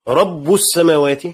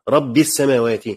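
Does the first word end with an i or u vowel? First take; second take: u; i. First: The first word ends with a u vowel. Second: The first word ends with an i vowel. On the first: The word is the subject of a new sentence. "بالرفع" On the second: The word is a substitute for 'your Lord'. "القراءة الأولى بالجر"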